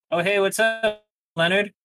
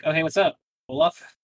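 First: Bartender's greeting, pitched higher and brighter in tune; lightly voiced bartender, higher pitched; casual bartender greeting. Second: Said in the usual way. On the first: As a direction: toss off "Oh, hey, what's up" high and breezy like a barkeep. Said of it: "the bartender was like". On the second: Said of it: "And Lutrick was like".

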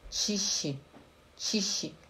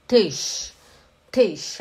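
First: "Tiche" com tch e i final, bem baixinho; wrong tiche. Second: "Tisch" com i curto e sh final, sem vogal; German Tisch. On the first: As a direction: diga "Tiche" à brasileira, com vogal no fim. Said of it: "Não é tiche". (pronúncia errada "tiche" com i final) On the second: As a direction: diga "Tisch" seco e curto. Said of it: "Presta atenção". ("Tisch" pronunciado à alemã) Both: Shown as a demonstration.

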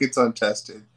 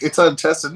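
First: Said in the usual way. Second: Sneering mimic of the excuse; mocking quote. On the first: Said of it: "No, fuck". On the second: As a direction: parrot "untested" scornfully. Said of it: "It's like".

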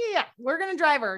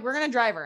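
First: Higher-pitched retold insistence; imitating parents brushing off the question; insistent confirmation. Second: Said in the usual way. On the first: Parents insist after being questioned.

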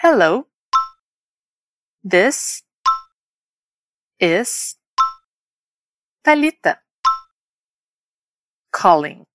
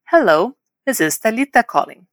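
First: "Hello", "this", "is", "Thalita", "calling" separated by long pauses; word by word. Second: Said in the usual way. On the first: Shown as a demonstration. Teacher introducing herself for learners to copy, word by word. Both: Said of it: "Repete comigo agora".

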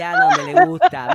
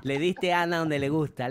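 First: High, loud teasing cry; excited shout. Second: Said in the usual way. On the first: Real, not acted. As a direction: yell it out to tease. Teasing repeat, much louder. (grito burlón y fuerte) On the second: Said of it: "repeated louder".

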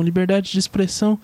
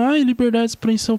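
First: Said in the usual way. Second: Whiny mock version of "liberdade de expressão"; mocking whine. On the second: Mocking the guys who yell about free speech, whiny. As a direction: sneer "liberdade de expressão" like a spoiled protester. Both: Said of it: "vê os caras gritando".

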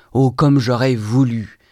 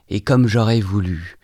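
First: Higher, louder, slow on "oh, comme j'aurais voulu"; intense longing. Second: Said in the usual way. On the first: A narrator's reading. Narrator longing to reconcile, "oh, comme j'aurais voulu" swelling with yearning. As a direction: draw out "oh, comme j'aurais voulu" as a heartfelt, rising-intensity wish. Wish repeated with mounting longing.

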